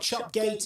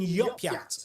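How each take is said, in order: First: It starts with 'ch' and ends with 'gate'. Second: It starts with 'y' and ends with 'yat'. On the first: "it's not Chopgate" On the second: "or even Yopyat, according to one commenter"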